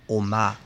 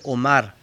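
First: The word ends in a long A vowel. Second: The final R is pronounced as a consonant. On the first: "en alemán sería Oma, con una A larga" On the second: "su nombre Omar"

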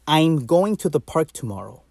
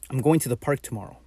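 First: The word 'I'm' is said with a full, clear 'I' vowel. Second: The word 'I'm' is said with a reduced, shortened vowel. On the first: "listen to me say something with I'm" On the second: "and then listen to me say it with"

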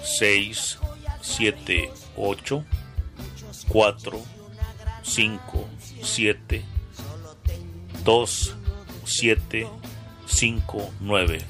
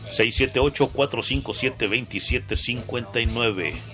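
First: The number is said slowly, digit by digit. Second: The number is said at normal speed.

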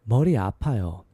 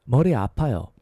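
Both takes have the same delivery.

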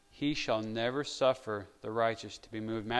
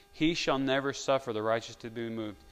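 Both takes have the same delivery.

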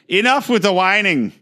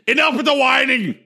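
First: It is spoken in a Venezuelan Spanish accent. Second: It is spoken in a forceful Austrian accent. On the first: "I'll do it in a Maduro accent for you" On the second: "Like Arnold Schwarzenegger"

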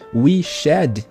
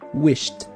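First: The ending is said as a separate syllable. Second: The word is said as one single syllable. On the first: The speaker calls it wrong. "em vez de falar we shed" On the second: The speaker calls it right. "a gente fala wished"

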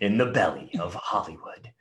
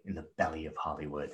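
First: It is said in a dramatic put-on voice. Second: It is said in a normal speaking voice.

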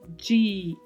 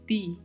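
First: The d is softened into a dj sound. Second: The d is a plain, hard d sound. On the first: The speaker calls it wrong. "Não se faz som de di em espanhol" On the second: The speaker calls it right. "É di"

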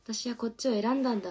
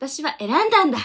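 First: It is said in a dejected, deflated way. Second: It is said confidently, with the ending raised.

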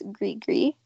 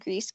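First: The word ends without any S sound. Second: The word ends with an audible S sound. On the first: The speaker calls it right. "I don't think you pronounce the S" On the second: The speaker calls it wrong. "not pronounced grease"

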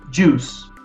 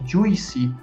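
First: The word ends on the s sound alone. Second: The word ends with an extra vowel sound. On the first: The speaker calls it right. "Esse I, a gente não soa ele" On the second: The speaker calls it wrong. "ao invés de juicy"

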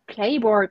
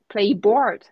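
First: The stress falls in its usual place. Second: The stress is moved to the other syllable. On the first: The speaker calls it right. "you say playboard" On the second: The speaker calls it wrong. "not playboard"

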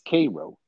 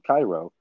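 First: The name is said the Illinois town's way. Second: The name is said the Egyptian city's way. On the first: "but here in Illinois, it's Cairo" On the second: "there's a city in Egypt, kind of at the north of the Nile, called Cairo"

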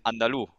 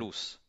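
First: The final S is dropped, Andalusian style. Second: The final S is clearly pronounced.

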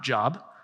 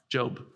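First: The vowel is short, like in 'rob'. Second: The vowel is long, like in 'robe'. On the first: It means work or employment. The speaker calls it wrong. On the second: It names the book of the Bible. The speaker calls it right.

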